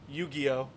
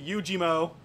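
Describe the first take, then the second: First: The name ends with an 'oh' sound. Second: The name ends with a 'mo' sound. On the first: The speaker calls it right. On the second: The speaker calls it wrong.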